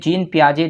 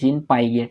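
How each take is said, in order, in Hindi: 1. Surname नरम 'zhay' आवाज़ पर खत्म होता है। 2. सरनेम कड़ी 'get' आवाज़ पर खत्म होता है। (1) "जीन पियाजे जो है उनका नाम है" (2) "स्पेलिंग को देखेंगे तो आप नॉर्मली पहली बार आप सोचेंगे"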